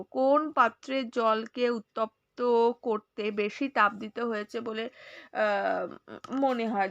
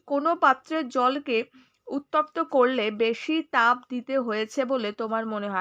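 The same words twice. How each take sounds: First: Slow, careful second reading for the class; slow reread. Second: Said in the usual way. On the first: Shown as a demonstration. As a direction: read it again slowly, word by word. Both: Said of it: "আরেকবার পড়বো".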